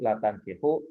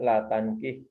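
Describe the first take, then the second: First: The last word ends with a short 'u' vowel. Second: The last word ends on a bare consonant. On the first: It is a mild negation, meaning merely not allowed. "didomahkan bacanya" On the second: It is a firm prohibition, meaning forbidden. "Kalau disukunkan"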